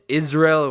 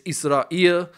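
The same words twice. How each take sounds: First: The stress is on the first syllable. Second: The stress is on the last syllable. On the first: "with the emphasis on the first syllable" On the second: "which places the emphasis on the last"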